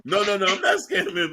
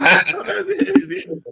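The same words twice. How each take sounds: First: Laughing through the denial. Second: High, slow teasing sing-song; playful sing-song denial. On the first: Real, not acted. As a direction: deny it while chuckling. Denies scamming, laughing. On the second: Acted.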